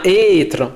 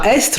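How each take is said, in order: First: No S sound is pronounced before the T. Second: An S sound is pronounced before the T. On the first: The speaker calls it right. "on dit bien être" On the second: The speaker calls it wrong. "on ne dit pas estre"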